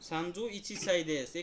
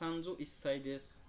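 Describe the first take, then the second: First: The number is said in full as ichi. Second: The number is shortened to is before sai. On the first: "এটাও হয়।" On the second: "ইচিটাকে এক সময় একটা উচ্চারণ হয়"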